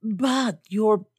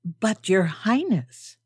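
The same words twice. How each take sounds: First: Mild shock, higher, breaking off; shocked protest, cut off. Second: Slow, drawn-out remonstrance; shocked protest. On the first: Old gentleman interrupted before naming her title, shocked protest. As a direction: start a protest and stop short. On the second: Old gentleman objecting to Her Highness, slow shocked protest. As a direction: protest with mild, dignified shock. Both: A narrator's reading. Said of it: "say in shocked protest".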